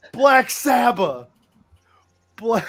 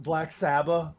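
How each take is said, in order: First: Metal scream. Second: Said in the usual way. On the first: Shown as a demonstration. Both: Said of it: "it's like you're screaming".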